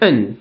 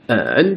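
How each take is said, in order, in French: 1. Il se prononce avec le quatrième ton. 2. Il se prononce avec le troisième ton. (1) "quatrième ton" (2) "troisième ton"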